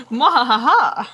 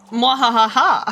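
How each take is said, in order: First: Hammy evil laugh, falling at end; gleeful villain cackle; mad scientist cackle. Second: Hammy evil laugh; mad scientist cackle. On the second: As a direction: cackle like a cartoon villain. Villain laugh at squid. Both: Acted.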